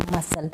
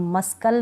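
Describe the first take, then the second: First: "मसल" with a silent C; lower, softer model "मसल", no K; correct pronunciation. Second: "मस्कल" with the C sounded as K; mispronounced "मस्कल", C not silent; wrong pronunciation. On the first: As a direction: drop the K sound from "मसल". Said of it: "सी इसमें silent है". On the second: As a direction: say a hard K after S in "मस्कल". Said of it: "मस्कल नहीं बोलूँगी". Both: Shown as a demonstration.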